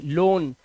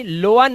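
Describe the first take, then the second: First: "लोन" as one long O, lower; correct pronunciation. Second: "लोअन" as two syllables, lo-un; wrong pronunciation. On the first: Teacher models "लोन" for OA, correct pronunciation. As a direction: say loan as "लोन", one syllable. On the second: Teacher shows the misreading "लोअन", wrong pronunciation. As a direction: misread loan with O and A apart, "लोअन". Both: Shown as a demonstration. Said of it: "लोअन नहीं".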